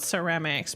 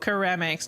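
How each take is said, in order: First: The word begins with an s sound. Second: The word begins with a k sound. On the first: "not ceramiek" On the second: "because keramiek"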